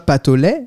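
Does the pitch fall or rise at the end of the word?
rises. The pitch rises at the end of the word. The speaker calls it wrong. "c'est pas patolé"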